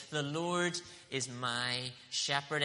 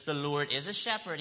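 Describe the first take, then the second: First: "The Lord is my shepherd" said slowly, leaning on "my"; slow and firm, land on "my"; emphatic, stress on my. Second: Said in the usual way. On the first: Shown as a demonstration. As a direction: personal claim with "my" stressed. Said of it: "It's an emphatic statement". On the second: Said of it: "He doesn't just say that".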